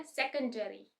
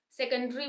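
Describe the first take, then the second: First: सेकेंडरी with a full "air" before -ry; American pronunciation. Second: सेकेंडरी with the middle vowel swallowed; British pronunciation. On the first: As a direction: say सेकेंडरी as SEK-un-dair-ee. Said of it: "American में बोला जाता है". (सेकेंडरी में ए sound, American में) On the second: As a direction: say सेकेंडरी as SEK-un-dree. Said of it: "बोलते हैं British English में". (सेकेंडरी को सेकंड्री जैसा, ब्रिटिश में) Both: Shown as a demonstration.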